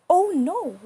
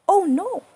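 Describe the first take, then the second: No difference in how they are said.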